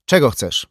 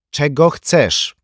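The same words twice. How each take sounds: First: High, loud, curt demand; sharp question. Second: High, loud, slow demand; insistent repeated demand. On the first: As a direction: ask sharply, pitched up. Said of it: "spytała ostro Katrin Kent". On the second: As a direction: draw the question out forcefully. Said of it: "powtórzyła Katrin Kent". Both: A narrator's reading.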